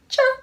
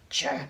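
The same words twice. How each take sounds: First: It is said in a high, squeaky voice. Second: It is said in a deep, low voice. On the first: "Now in a high voice" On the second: "Now in a deep voice"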